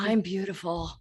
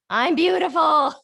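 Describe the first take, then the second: First: It sounds doubtful and unconvinced. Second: It sounds sure and convinced.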